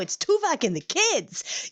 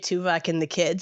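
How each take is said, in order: First: It is said with enthusiastic, emphatic inflection. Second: It is said doubtfully, as a question.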